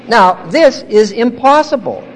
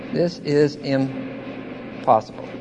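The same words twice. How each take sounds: First: High, firm emphasis on IMPOSSIBLE; emphatic declaration. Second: Slow, low and soft; hushed repetition. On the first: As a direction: declare IMPOSSIBLE forcefully to the room. Preacher declares, then repeats softly. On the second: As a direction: let it sink in, quietly and slowly. Same words repeated softly for effect. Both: Real, not acted.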